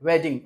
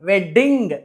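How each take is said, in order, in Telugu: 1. మధ్య d శబ్దం హ్రస్వం. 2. మధ్య d శబ్దం దీర్ఘం. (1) "ఒక డి చెప్తే సరిపోతుంది" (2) "వెడ్డింగ్ కాదండి"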